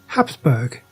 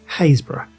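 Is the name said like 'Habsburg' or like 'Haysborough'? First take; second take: Habsburg; Haysborough. First: It is said like Habsburg, two syllables. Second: It is said like Haysborough, three syllables. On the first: The speaker calls it wrong. "it isn't pronounced Habsburg" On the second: The speaker calls it right. "It's pronounced Haysborough"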